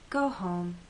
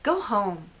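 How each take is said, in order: First: It sounds caring and gentle. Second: It sounds harsh and rude.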